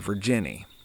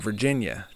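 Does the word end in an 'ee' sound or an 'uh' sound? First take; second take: ee sound; uh sound. First: The word ends in a long 'ee' sound. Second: The word ends in an 'uh' sound.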